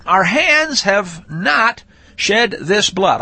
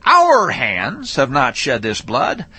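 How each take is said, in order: First: Slow, weight on hands; "Our hands have not shed this blood" with hands stressed; first reading. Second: "Our" lifted and stressed, slow; "Our" leaned on, the rest slow. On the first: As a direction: lean on the word hands, slowly. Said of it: "I'm gonna reread that and re-change the emphasis". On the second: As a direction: hit the word "Our" and draw the line out. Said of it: "re-change the emphasis, put it on a different syllable". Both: Shown as a demonstration.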